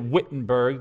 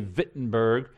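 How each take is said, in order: First: It is pronounced the English way. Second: It is pronounced the German way.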